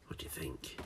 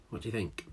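First: Soft secret whisper. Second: Said in the usual way. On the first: Real, not acted. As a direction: lean in and whisper the question. Teasing whisper to children. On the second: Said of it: "What do you think? whispered".

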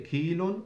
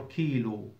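First: "kilon" closed on an -on ending. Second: "kilu" left open on an u vowel; ending in -u. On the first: Teacher gives students the first accepted form, "kilon" with final n. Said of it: "So you say kilon or kilu". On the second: Teacher gives students the other accepted form, "kilu" ending on u. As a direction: say "kilu" with no final n. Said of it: "or you drop the waw". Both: Shown as a demonstration.

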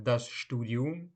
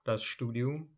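First: "das Studium" spoken slowly, each syllable clear, rising at the end; slow dictation-style "das Studium"; slow careful model. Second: Said in the usual way. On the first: Shown as a demonstration. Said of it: "teacher repeats word slowly then normally". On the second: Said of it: "repeat at normal pace".

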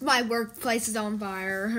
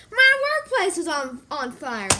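First: Low, offhand report; unbothered. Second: Mock alarm. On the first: Pretend. Retelling the workplace fire, low and unbothered. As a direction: shrug off the news in a low voice. Same news shrugged off, not very. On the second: Spotting the workplace fire, mock alarm. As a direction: call out the fire, then tail off.

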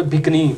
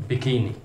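First: बिकनी in two syllables, BIK-nee; common mispronunciation. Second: बिकिनी in three syllables, bi-KEE-nee; correct pronunciation. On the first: Teacher quoting the local reading, BIK-nee for बिकनी. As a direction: drop the middle vowel of बिकनी. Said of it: "इसको आमतौर पे बिकनी पढ़ते हैं". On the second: Teacher modelling the correct word, bi-KEE-nee for बिकिनी. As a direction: stress a long "kee" in बिकिनी. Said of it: "इसकी दुरुस्त pronunciation है". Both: Shown as a demonstration.

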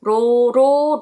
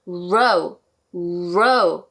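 First: Row, row with a flat Korean ㄹ tap; Korean-style row. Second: Lower, rounded "row" with a curled R; English R row. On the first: Teacher showing the wrong way, Korean-style row. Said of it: "우리말의 리을처럼 발음해서". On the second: Teacher modelling the English R, row. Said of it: "row 이렇게 발음해 주시면 좋습니다". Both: Shown as a demonstration.

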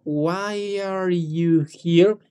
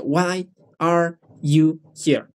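First: Long, continuous, drawn-out "Why are you here?"; slow but linked. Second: "Why are you here?" slowly, a gap after each word; words separated. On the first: Teacher shows it can be slower, slow and unbroken. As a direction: stretch "Why are you here?" very slowly without breaking it. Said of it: "No importa decirlo más lento como". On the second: Teacher shows what to avoid, every word separated. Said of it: "No lo hay que separar mucho tanto". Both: Shown as a demonstration.

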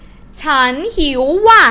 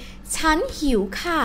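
First: Loud, impolite outburst; emotional. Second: Soft, polite Thai phrase. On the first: Teacher showing an impolite particle to students, emotional. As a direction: blurt it out loudly, with feeling. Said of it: "it started to get emotional". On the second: Teacher showing students how to say it politely, polite. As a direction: say it softly and courteously. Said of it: "say it politely". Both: Shown as a demonstration.

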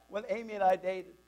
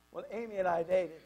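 The two takes are said the same way.

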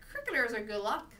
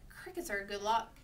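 First: Mocking, sceptical echo, rising; dry disbelief. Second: Said in the usual way. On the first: A narrator's reading. Mother doubts crickets bring luck, dry sarcasm. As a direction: repeat the claim as if you don't buy it. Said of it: "sounding very dry when she didn't believe".

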